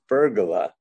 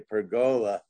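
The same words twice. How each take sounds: First: The word is said with an English/Italian pronunciation. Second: The word is said with an American pronunciation. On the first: "The English and Italian pronunciation is pergola" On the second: "that apparently is the approved American pronunciation"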